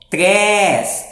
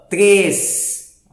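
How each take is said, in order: First: The vowel is open, with the mouth wide. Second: The vowel is closed, with the mouth less open. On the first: The speaker calls it wrong. "Olha como a boca abriu" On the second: The speaker calls it right. "Mas eu não vou abrir tanta boca para ler ele"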